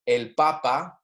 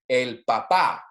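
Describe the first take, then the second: First: The stress is on the first syllable. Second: The stress is on the final syllable. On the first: It refers to the pope. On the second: It refers to one's father.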